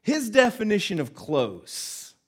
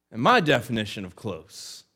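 First: "His definition of close" high, slow and pointed; contrastive stress. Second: "my definition of close" at usual pitch, louder; contrastive answer. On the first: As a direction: set "His" up high against the other view. Contrasts father's view with own. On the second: Own view against father's. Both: Shown as a demonstration.

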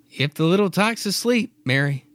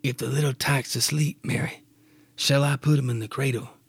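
First: Husband's line in a mistaken high pitch; wrong voice. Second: Father's gentle question in his own voice; right Clyde voice. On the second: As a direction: say it in Clyde's normal voice. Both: Acted. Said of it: "wrong voice".

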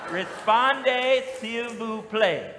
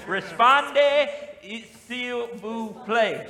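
First: "Répondez, s'il vous plaît" in a drawn-out Southern accent, ree-SPON-day seel voo play; Southern-accented French for the congregation. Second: "Répondez, s'il vous plaît" said slowly, French style, ray-pon-DAY seel voo PLAY; careful slow French phrase; French pronunciation. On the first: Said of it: "Y'all try to say that with a southern accent". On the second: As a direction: lift "Répondez" high and loud, then ease down slowly. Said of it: "there we go". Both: Shown as a demonstration.

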